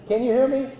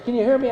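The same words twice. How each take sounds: First: Projecting teacher voice to the room. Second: Said in the usual way. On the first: Shown as a demonstration. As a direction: call out to the back like a teacher. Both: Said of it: "I'm gonna use my teacher voice rather than this".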